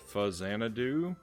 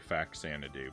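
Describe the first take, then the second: First: The middle consonant is a z sound. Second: The middle consonant is a ks sound. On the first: The name comes from Famicom and Xanadu. "which would then suggest Fuzzanadu as the correct pronunciation" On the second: It is the common way to say it. "I think most people say"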